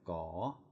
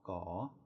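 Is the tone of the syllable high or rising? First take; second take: rising; rising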